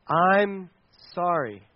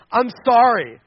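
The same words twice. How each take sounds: First: Slow, spaced-out, deliberate apology; sincere apology. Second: Loud, insincere mock apology; grudging apology. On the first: Shown as a demonstration. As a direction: say it simply, pausing between the words and dropping at the end. Models a true apology. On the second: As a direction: blurt out a forced sorry, like a sibling made to apologize. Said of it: "And then you storm".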